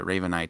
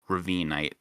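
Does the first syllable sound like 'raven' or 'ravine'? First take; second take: raven; ravine. First: The first part sounds like the word raven. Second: The first part sounds like the word ravine. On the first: The speaker calls it wrong. "not like Raven" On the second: The speaker calls it right. "but like Ravinite"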